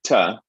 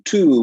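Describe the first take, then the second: First: The vowel is reduced to a schwa. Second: The word has a full 'oo' vowel. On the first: "we get ta" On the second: "instead of saying to"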